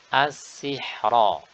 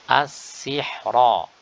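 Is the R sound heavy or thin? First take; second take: heavy; heavy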